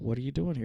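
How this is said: It sounds warm and welcoming. The person is invited to share their needs. The speaker calls it right. "But it really was an invitation"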